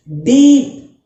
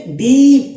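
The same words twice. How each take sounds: First: Loud sharp ee. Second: डीप said loud with a strong ee; loud sharp ee. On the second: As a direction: call out डीप with force. (डीप ज़ोर से, तेज़ ई) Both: Shown as a demonstration. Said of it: "sound तेज है".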